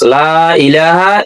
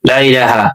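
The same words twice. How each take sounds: First: The vowel in 'la' is drawn out long. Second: The vowel in 'la' is cut short. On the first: The speaker calls it right. "টানতে হবে কমপক্ষে এক আলিফ টানা ফরজ... এটা আপনাকে এইভাবে উচ্চারণ করতে হবে" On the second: The speaker calls it wrong. "কিন্তু আমরা অনেকে পড়ি লা ইলাহা। লা ইলাহা যদি বলেন তাহলে আপনার গুনাহ হবে"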